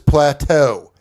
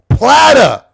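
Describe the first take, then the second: First: The word is said in the standard pronunciation. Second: The word is said the mocked Australian way. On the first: The speaker calls it right. "The word is plateau. It's a French word" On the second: The speaker calls it wrong. "Tell me that's just Australia fucking that word up"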